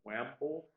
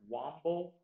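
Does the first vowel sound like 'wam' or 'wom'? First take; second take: wam; wom. First: The first vowel sounds like 'wam'. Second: The first vowel sounds like 'wom'. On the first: "can also be pronounced wamble" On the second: "the word is womble"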